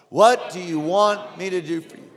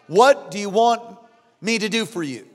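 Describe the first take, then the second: First: Said in the usual way. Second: Stretched, weighty question; solemn model line; slow emphatic question. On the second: Shown as a demonstration. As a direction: lean on each word slowly. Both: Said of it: "Everybody say that".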